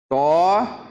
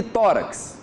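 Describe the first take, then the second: First: "Tórax" split as Tó... rax, long pause between; syllable by syllable. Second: Said in the usual way. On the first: Shown as a demonstration. Teacher separating syllables for students, "Tórax" in two drawn-out parts. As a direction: hold a rising "Tó", pause, then "rax". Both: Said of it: "Vamos separar aqui".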